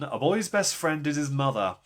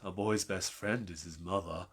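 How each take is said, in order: First: It is read in a plain, neutral voice. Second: It is said in a creepy, sinister voice.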